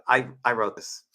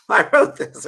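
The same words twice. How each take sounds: First: Said in the usual way. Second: Said through a loud laugh. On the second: Real, not acted. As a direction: laugh out the line, higher and louder. Laughing proud admission.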